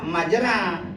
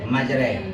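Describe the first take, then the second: First: The final vowel is a plain open 'a'. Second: The final vowel is tilted toward 'e'. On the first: "tulisannya majra" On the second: "tapi bacanya majre"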